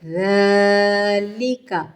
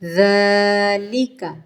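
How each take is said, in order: No difference in how they are said.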